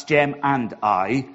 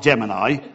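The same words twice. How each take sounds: First: GEM AND I as three distinct, slower words; separated words. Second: GEM AND I merged into one word, like Gemini; run-together words. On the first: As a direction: say "Gem and I" word by word, slowly and clearly. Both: Shown as a demonstration. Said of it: "not Gem and I".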